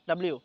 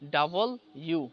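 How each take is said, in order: First: The letter name is run together as one word. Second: The letter name is said as two separate words. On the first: The speaker calls it wrong. "Nasrullah ভাই বলছেন ডাব্লিউ" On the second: The speaker calls it right. "এটা হবে ডাবল ইউ"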